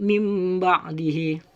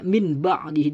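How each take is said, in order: First: An m sound comes before the b. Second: An n sound comes before the b. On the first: The speaker calls it right. "seakan-akan suaranya itu seperti mim sukun" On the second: The speaker calls it wrong. "tidak boleh min ba'dihi"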